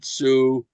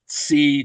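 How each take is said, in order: First: The word is said with an 'oo' vowel. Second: The word is said with an 'ee' vowel. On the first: This is the form used today. "say now zu" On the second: This is the older family dialect form. "My my grandmother used to say leg sich tzi"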